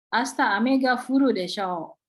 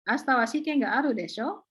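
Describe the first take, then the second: First: "desho" dropping at the end, as a statement; falling prediction intonation. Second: "desho" swung upward at the end; rising confirmation intonation. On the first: Teacher showing students the prediction desho, with falling intonation on "desho". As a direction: let "desho" sink, predicting rather than asking. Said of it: "kalau intonasinya merendah". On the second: Teacher repeating the exam example to students, rising intonation on "desho". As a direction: ask for agreement, pitch climbing on "desho". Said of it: "yang barusan dicontohkan kan intonasinya naik".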